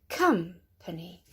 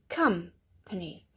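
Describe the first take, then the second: No difference in how they are said.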